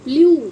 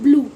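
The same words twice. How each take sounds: First: The vowel is a yoo sound. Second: The vowel is a plain oo sound.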